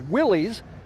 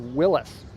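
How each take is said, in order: First: The last syllable sounds like 'lees'. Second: The last syllable sounds like 'lis'. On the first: This is how most people say it today. The speaker calls it wrong. "most people today pronounce it Willys" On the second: This is the original way it was said. The speaker calls it right. "the actual correct pronunciation is Willis"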